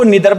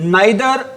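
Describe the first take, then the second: First: The first vowel sounds like 'ee'. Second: The first vowel sounds like 'eye'. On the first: "निदर भी बोल सकते हैं" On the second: "नाइदर को"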